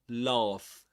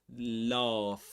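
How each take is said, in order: First: It has a long open British vowel. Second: It has a long open British vowel.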